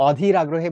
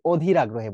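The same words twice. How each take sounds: First: অধীর starting with an open "aw"; open অ sound. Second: অধীর starting with a rounded "oh"; closed ও sound. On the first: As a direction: say অধীর as "AW-dhir". (অধীর, শুরুতে খোলা অ) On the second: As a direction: say অধীর as "OH-dhir". (অধীর, শুরুতে ও-এর মতো উচ্চারণ) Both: Shown as a demonstration. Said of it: "ও এর মতো উচ্চারণ".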